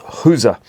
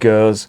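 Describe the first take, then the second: First: The word is said the Flemish way. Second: The word is said the French way.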